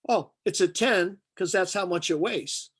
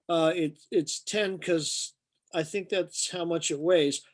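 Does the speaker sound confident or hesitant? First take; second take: confident; hesitant. First: It is said with confidence and authority. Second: It is said hesitantly, with false starts.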